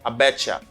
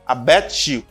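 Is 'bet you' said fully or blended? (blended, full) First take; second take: blended; full. First: 'Bet you' is blended into 'betcha'. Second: 'Bet you' is said as two full words. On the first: It is informal speech. "They say betcha for informal one" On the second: It is formal speech. "They say bet you for formal one"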